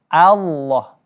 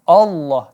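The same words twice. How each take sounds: First: The first vowel is a clear open a. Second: The first vowel is muffled and unclear. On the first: The speaker calls it right. "hamzahnya harus kita dibaca a, jelas" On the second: The speaker calls it wrong. "bukan Allah"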